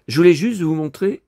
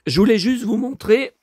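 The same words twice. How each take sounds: First: Raspy after a cough; hoarse, gravelly throat. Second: Said in the usual way. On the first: Real, not acted. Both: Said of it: "j'ai la voix éraillée".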